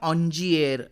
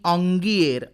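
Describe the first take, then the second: First: Soft j in the middle, ending with an r. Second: Hard g in the middle, ending with an r. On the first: Some people say it this way. "कुणी याचा उच्चार ऑन्जिएर असा करतात" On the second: Other people say it this way. "तर कुणी ऑंगिएर असाही करतात"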